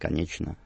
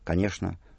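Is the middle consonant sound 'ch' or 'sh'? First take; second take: ch; sh. First: The middle consonants are pronounced as 'chn'. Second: The middle consonants are pronounced as 'shn'. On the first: This is the traditional Petersburg pronunciation. "традиционное петербургское «чн»" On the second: This is the traditional Moscow pronunciation. "Традиционное московское произношение «шн»"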